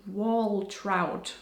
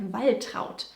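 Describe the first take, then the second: First: Wall trout as two English words; American misreading. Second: Waltraut with an initial v sound, "VAL-trowt"; German pronunciation. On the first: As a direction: read Waltraut slowly as English "wall trout". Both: Shown as a demonstration. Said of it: "which would be wall trout for Americans".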